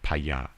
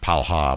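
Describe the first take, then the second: First: The middle consonant sounds like an English Y. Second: The middle consonant sounds like an English L. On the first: The speaker calls it right. "you pronounce that Ya" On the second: The speaker calls it wrong. "Not Palha"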